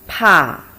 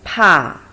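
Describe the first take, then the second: First: It is said with the fourth tone. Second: It is said with the fourth tone.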